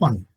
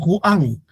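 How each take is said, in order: First: The u and a merge into one syllable. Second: The u and a are in separate syllables. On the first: The speaker calls it right. "decimos Juan, un solo sonido" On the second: The speaker calls it wrong. "no decimos Juan"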